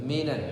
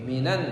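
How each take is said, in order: No difference in how they are said.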